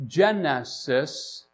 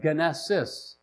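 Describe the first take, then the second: First: "genesis" slowly with a soft G as in gem; soft G pronunciation. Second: "genesis" with a hard G as in go; hard G pronunciation. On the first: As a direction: say "genesis" drawn out, starting with a j sound. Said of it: "to a soft G". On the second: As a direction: say "genesis" slowly, starting with a hard g. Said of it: "hard G, to a soft G". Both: Shown as a demonstration.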